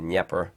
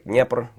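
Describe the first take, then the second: First: The name is pronounced the English way. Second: The name is pronounced the Russian way. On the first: "in English, we say Dnieper" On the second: "That's how you say it in Russian"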